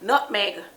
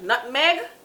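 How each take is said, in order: First: It is said in a standard English accent. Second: It is said in a Jamaican accent. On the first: "The English word is nutmeg" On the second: "That's what Jamaicans say"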